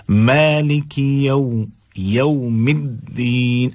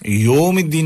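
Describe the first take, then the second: First: "یوم" slow, as ya-oom; correct au glide. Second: "یوم" as straight yom, no glide; wrong o vowel. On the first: Teacher modelling for learners, slow au glide. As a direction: draw out "یوم الدین" gliding from a to oo. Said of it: "یوم الدین نہیں پڑھنا ہے". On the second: Teacher showing learners the mistake, flat o vowel. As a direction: say "یوم الدین" quickly with a plain o. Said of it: "نہیں پڑھنا ہے". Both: Shown as a demonstration.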